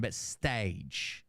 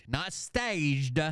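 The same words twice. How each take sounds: First: "stage" ending on the J sound, no D; no final D. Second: "staged" with an audible D on the end; final D sounded. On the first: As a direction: drop softer and end "stage" without any D. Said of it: "with a D on the end, but stage". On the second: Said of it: "with a D on the end". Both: Shown as a demonstration.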